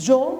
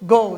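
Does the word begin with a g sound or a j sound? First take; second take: j sound; g sound. First: The word begins with a j sound. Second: The word begins with a hard g sound. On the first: The speaker calls it wrong. "জি যদি অক্ষর দিয়ে উচ্চারণ হতো তাহলে জিও" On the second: The speaker calls it right. "জি এর sound কি গ, এই জন্য কিন্তু গ ও গো"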